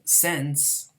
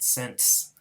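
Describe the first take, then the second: First: No t sound comes between n and s. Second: A faint t sound comes between n and s.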